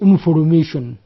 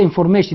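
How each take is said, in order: First: The word is said in a Nigerian accent. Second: The word is said in a standard accent. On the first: "if someone from Nigeria comes and say" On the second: "he wants to say information"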